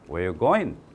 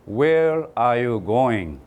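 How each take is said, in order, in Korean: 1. 빠르게 발음하며 'are'는 빠집니다. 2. 모든 단어를 완전하고 천천히 발음합니다. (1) "빨리 발음할게요. 제가 미국 사람처럼 발음해 볼게요" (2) "한 사람도 미국 가면 Where are you going이라고 발음하는 사람이 없어요"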